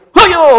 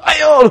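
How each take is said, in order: First: Sharp high loud "Hayo!" from behind; prank scare shout. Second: High loud cry of "Ayo!" as if falling; crying-out scare. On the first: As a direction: yell "Hayo!" to make them jump. Pushing friend at river edge. (teriakan mengagetkan dari belakang) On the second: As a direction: shriek "Ayo!" while grabbing the shirt. Grabbing friend's shirt as prank. (teriak sambil menarik baju teman) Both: Retold or imitated.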